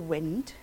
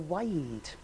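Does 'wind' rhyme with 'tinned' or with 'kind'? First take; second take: tinned; kind. First: The word has a short vowel, rhyming with tinned. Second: The word has a long vowel, rhyming with kind. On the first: It refers to moving air. The speaker calls it wrong. "We don't vary with the wind" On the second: It refers to winding up a clock. The speaker calls it right. "the verse is all about clocks"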